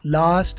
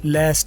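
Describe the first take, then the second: First: The vowel is a long open 'ah' sound. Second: The vowel is a short flat 'a' sound. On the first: "लास्ट British है" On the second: "लास्ट American है"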